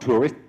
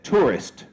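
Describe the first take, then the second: First: The final consonant sound is left off. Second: The final consonant sound is clearly pronounced. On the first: The speaker calls it wrong. "not tourist" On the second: The speaker calls it right. "It should probably be said tourist"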